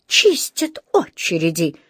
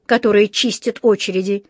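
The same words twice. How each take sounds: First: Slow, offended repetition; indignant echo. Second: Said in the usual way. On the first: A narrator's reading. Mr Brown throws the policeman's words back, indignant. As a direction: repeat it slowly, with indignation. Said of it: "с негодованием повторил мистер Браун". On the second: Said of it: "сказал он, обращаясь к коллеге".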